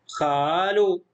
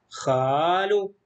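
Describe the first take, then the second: Both takes have the same delivery.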